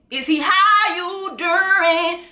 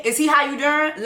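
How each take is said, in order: First: Sung tease. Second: Said in the usual way. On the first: Pretend.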